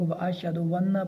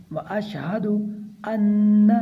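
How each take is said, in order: First: Quick "वन्न" with a w slipped in before "anna"; added waw. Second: Measured chant, "अन्न" begun cleanly on the vowel; no added waw. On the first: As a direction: wrongly glide into "वन्न" with a waw. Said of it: "गफलत करते हैं इसमें भी लोग". ("अन्न" को "वन्न" पढ़कर) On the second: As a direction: start "अन्न" apart, with no w before it. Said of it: "वाव नहीं है यहाँ पर". ("अन्न" बिना वाव के) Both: Shown as a demonstration.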